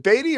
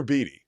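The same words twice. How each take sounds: First: Beatty with a long AY in the first syllable; "Beatty" rhyming with "weighty"; pronounced BAY-dee. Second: Beatty with a long EE in the first syllable; "Beatty" rhyming with "meaty"; pronounced BEE-tee. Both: Shown as a demonstration. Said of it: "is it Beatty or Beatty".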